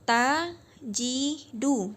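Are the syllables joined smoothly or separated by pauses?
separated. The syllables are separated by short pauses. The speaker calls it wrong. "bukan tajidu"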